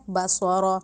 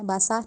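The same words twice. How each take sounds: First: باسارا said with a heavy rounded ص and ر, /basɔrɔ/; tajweed heavy letters; correct heavy sound. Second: باسا said thin with a flat light ص; wrong thin sound. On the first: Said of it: "باسارا کہنا بالکل غلط ہے". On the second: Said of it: "باسا نہیں کہنا". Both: Shown as a demonstration.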